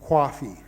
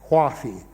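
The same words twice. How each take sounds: No difference in how they are said.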